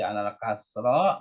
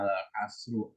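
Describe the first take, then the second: First: The last word ends with an a vowel. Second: The last word ends with a u vowel. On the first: "Nggak boleh dibaca alal kasro" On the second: "nggak boleh dibaca alal kasru"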